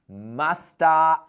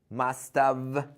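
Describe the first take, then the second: First: It is reduced to one short run, 'musta'. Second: Both words are said fully and separately. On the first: This is how most people really talk. "Listen to the pronunciation" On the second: This is the classical form. "the classical contraction that you can say must have"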